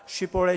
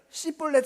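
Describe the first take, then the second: First: The word begins with an sh sound. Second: The word begins with a plain s sound. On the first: The speaker belongs to the other tribes. "다른 지파 사람들은 다 쉬볼렛" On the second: The speaker is an Ephraimite. "에브라임 사람들은 씨볼렛, 쉬 발음을 못하는 거예요"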